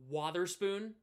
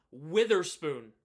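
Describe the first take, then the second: First: "Watherspoon" with an open "wah" start; correct Watherspoon. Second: "Witherspoon" loud, with a short i; mispronounced Witherspoon. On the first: Shown as a demonstration. Streamer showing how you pronounce it, WAH sound in "Watherspoon". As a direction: say "Watherspoon" as WAH-ther-spoon. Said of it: "which is how you pronounce it". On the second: Retold or imitated. Streamer mocking a wrong name, loud slow "Witherspoon". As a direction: punch "Witherspoon" slowly, WITH-er-spoon. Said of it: "not Reese Witherspoon".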